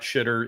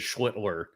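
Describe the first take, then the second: First: The name is said without the L sound. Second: The name is said with the L sound. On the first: The speaker calls it wrong. "It is not Shitter" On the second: The speaker calls it right. "It is Schlittler"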